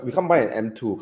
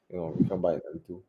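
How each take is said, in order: First: Said in the usual way. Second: Softer, quicker muttered repeat; quiet aside. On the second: Real, not acted.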